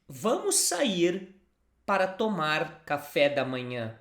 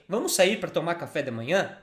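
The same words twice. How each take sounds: First: It has the intonation of a plain statement. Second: It has the intonation of a question. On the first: A suggestion to go out for breakfast. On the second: Asking whether to go out for breakfast.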